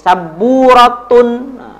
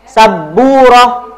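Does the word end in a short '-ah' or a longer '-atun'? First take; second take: -atun; -ah. First: The word ends with a full '-atun' ending. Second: The word ends with a short '-ah' ending. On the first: The speaker calls it wrong. "jangan kasih saburatun" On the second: The speaker calls it right. "Saburah aja ya, roh aja"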